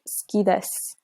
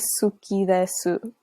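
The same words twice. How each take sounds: First: The u vowels are dropped or whispered. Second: The u vowels are fully pronounced. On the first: The speaker calls it right. "They say suki desu" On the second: The speaker calls it wrong. "they don't say suki desu"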